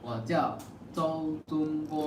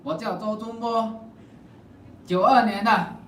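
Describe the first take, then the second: First: It is said at a normal, quiet volume. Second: It is said loudly.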